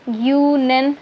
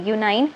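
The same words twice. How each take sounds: First: "guanine" ending short, like nin; wrong ending nin. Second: "guanine" ending as nine, gyoo-nine. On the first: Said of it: "निन बोले, नाइन बोलेंगे". ("guanine" के अंत में छोटा "निन") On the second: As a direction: stretch the end of "guanine" into nine. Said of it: "नाइन बोलेंगे". ("guanine" का अंत "नाइन" की तरह) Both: Shown as a demonstration.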